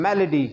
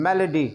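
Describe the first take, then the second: The two takes are said the same way.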